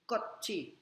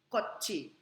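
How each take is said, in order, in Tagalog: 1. Ang gitnang katinig ay tunog CH. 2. Ang gitnang katinig ay tunog CH.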